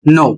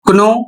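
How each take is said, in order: First: The word begins with an n sound, no k. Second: The word begins with a k sound before n. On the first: The speaker calls it right. "इसका सही उच्चारण होगा नो" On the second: The speaker calls it wrong. "तो आप गलत पढ़ रहे हैं"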